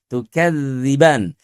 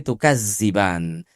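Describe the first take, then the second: First: The middle consonant is a voiced 'th' sound. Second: The middle consonant is a buzzing 'z' sound. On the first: The speaker calls it right. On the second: The speaker calls it wrong.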